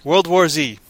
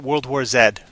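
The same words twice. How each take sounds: First: The final letter is said the American way. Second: The final letter is said the Canadian way. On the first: The speaker calls it wrong. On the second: The speaker calls it right.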